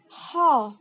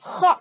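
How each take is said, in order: First: The throat rasp is light and soft. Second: The throat rasp is heavy, like snoring. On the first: The speaker calls it right. "Jadi teman-teman harus ho, ho gitu ya" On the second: The speaker calls it wrong. "nggak boleh ho, ho. Nah, itu salah"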